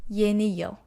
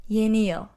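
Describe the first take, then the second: No difference in how they are said.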